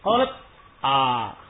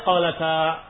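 First: The t is cut off before a separate a. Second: The t flows straight into the a. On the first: The speaker calls it wrong. "Qalat a, begitu bacanya. Ya enggak mungkin" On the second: The speaker calls it right. "Itu tadi bacanya qalata"

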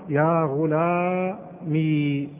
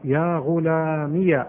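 First: The word ends in a long ee sound. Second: The word ends in ee followed by ya. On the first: "أثبتت الياء ساكنة" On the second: "أثبتت الياء إيش؟ متحركة"

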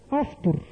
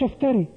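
First: The word ends on the consonant r. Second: The word ends with an added ee vowel. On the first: The speaker calls it right. "افتر مش افتري" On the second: The speaker calls it wrong. "افتري ايه؟"

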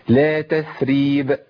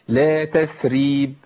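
Both takes have the same delivery.

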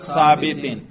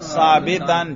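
First: The word ends in an -in sound. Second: The word ends in an -an sound. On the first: The word is in the genitive case. "جر پر" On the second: The word is in the accusative case. "نصب پر"

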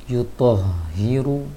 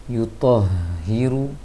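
Both takes have the same delivery.

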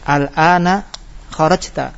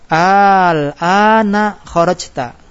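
First: The opening vowel is short. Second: The opening vowel is drawn out long. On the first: It states that the listener is leaving now. "Yang nomor 1 di sebelah kanan masih bentuknya berita" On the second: It asks whether the listener is leaving now. "masukkan hamzah istifham al ana kharajta dua kali panjangnya"

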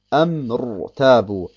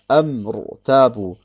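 No difference in how they are said.

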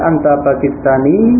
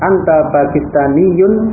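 First: The word ends without its case ending. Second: The full case ending is pronounced at the end. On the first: This is everyday conversational speech. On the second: This is careful reading for study.

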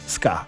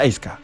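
First: The word starts directly with an s sound. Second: The word starts with an added e vowel. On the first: "nie mogą tak po prostu przeczytać ska" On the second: "oni muszą czytać eska"

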